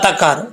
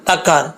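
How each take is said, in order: First: The middle h sound is dropped. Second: The middle h sound is dropped.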